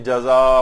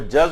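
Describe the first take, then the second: First: The word ends with an open vowel sound. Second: The word ends with a closing consonant sound. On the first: The speaker calls it wrong. "बहुत से लोग गलत तौर पे इसको पढ़ रहे होते हैं" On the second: The speaker calls it right. "वो जज़ और फ़ज़ होता है"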